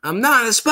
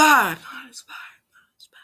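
First: High, loud protest; hammed-up Southern holler; acted shouted denial. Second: Fading, hushed repeats; hushed copy trailing away to almost nothing; whispered echo. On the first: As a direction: yell it out in mock alarm. Mater line, first take shouted. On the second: Acted. Same line repeated as fading echo.

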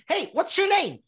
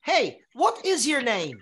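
First: Natural speed. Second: Slow, clear. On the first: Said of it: "Tem filme que vão falar assim". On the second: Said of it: "que a pessoa vai falar". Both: Shown as a demonstration.

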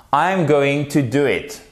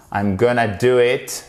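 First: GOING TO said in full, not gonna; full form, uncontracted. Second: GONNA run together, informal; casual contraction. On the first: Speaking to an important client, careful uncontracted GOING TO. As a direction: articulate GOING TO as two separate words. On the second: Teacher showing what to avoid with clients, casual contracted GONNA. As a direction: slur GOING TO into GONNA. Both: Shown as a demonstration. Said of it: "Vous n'allez pas dire gonna".

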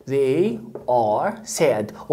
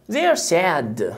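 First: "They are sad" in separate, slow words; full uncontracted form. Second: "They are" merged into one syllable, "they're"; contracted form. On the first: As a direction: say "They are sad" slowly, keeping "are" a whole word. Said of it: "They وتختصر وتدمج". (نطق "They are sad" كاملة ببطء من غير دمج) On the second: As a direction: run "They are" together as "they're" before "sad". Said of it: "وتختصر وتدمج". (نطق "They are" مدموجة "they're") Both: Shown as a demonstration.

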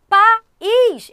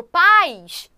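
First: País split loudly as pa-ÍS; high, loud País with the stress on a separate ÍS; two separate syllables. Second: Paz drawn out as one loud syllable, PAIS; run into one syllable. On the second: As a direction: say paz as a single gliding PAIS, stress on the A. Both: Shown as a demonstration. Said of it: "Eu não falo paz".

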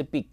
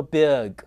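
First: Big with a tight "ee", like beeg; big on a pure "ee" vowel; wrong pronunciation. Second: Big as bi-uh-g; big with a lax, opened vowel; correct pronunciation. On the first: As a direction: say big with no schwa. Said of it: "不是big". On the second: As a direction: say big with a schwa glide. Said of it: "它叫做big". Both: Shown as a demonstration.

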